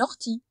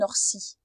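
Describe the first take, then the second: First: The 'ti' is said with a T sound. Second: The 'ti' is said with an S sound. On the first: The speaker calls it right. "le T avec le I fait quand même T" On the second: The speaker calls it wrong. "on ne dit pas"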